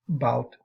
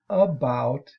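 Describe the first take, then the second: First: The first unstressed vowel is dropped entirely. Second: Both syllables are said, including the first vowel. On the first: This is the vernacular form. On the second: This is the standard form. "Standard English"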